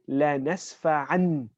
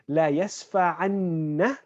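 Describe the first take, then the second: First: The final n is single and short. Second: The final n is doubled and held long. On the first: "the shadda is omitted" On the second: "instead of saying"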